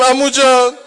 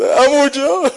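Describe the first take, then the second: First: High, loud mourning wail; uncle's lament to the boy, wailed; wailed cry. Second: High, loud wail of uncle; boy's dying call to his uncle, wailed; wailed cry. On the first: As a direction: call out in grief. Uncle's grief voiced. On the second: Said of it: "یک کلمه صدا زد". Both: Acted.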